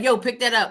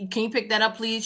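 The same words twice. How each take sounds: First: Rude demand. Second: Polite request. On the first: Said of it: "if you was like". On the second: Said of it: "if you said". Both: Retold or imitated.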